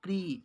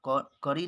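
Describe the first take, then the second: First: K and r are joined with no vowel between. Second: A short vowel separates the k and r. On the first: The speaker calls it right. "आधा क क्री" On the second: The speaker calls it wrong. "करी नहीं क नहीं बोल सकते क्योंकि ये आधा है"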